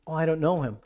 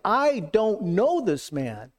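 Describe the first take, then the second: First: Said in the usual way. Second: Slow, higher-pitched, forceful "I don't know this man"; emphatic denial. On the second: Acted. Preacher voicing Peter's denial of Jesus, slow and emphatic. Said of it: "but he emphatically, I mean, he was like".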